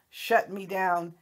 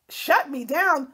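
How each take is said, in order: First: Said in the usual way. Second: Higher, louder, slow scoffing repeat; incredulous mocking echo. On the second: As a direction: throw her words back in disbelief, slowly. Mocking echo of her challenge.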